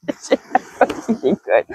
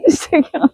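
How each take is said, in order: First: Slow, drawn-out, joking; laughing it off. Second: Higher, quick, through laughter; laughing. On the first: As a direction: stretch it out through a laugh. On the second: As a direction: repeat it, cracking up. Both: Real, not acted.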